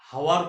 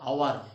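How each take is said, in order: First: The word begins with an audible h sound. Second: The word begins with a vowel, no h. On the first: The speaker calls it wrong. "এটাকে কিন্তু হাওয়ার বলবো না" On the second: The speaker calls it right. "এটাকে বলতে হবে আওয়ার"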